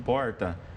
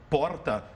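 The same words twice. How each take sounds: First: It is said in a rural São Paulo accent. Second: It is said in a São Paulo city accent. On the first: "o sotaque caipira aqui de São Paulo" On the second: "O pessoal do Rio, quando nos escuta falar porta"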